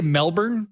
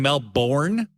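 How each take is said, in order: First: "Melbourne" with reduced ending, MEL-bern; correct local pronunciation. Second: "Melbourne" with a full "born" ending; mispronounced Melbourne. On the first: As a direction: say "Melbourne" as MEL-burn, unstressed second syllable. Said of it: "I just wanted to say Melbourne". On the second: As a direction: say "Melbourne" as mel-BORN, second syllable drawn out. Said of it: "I was corrected for saying". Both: Shown as a demonstration.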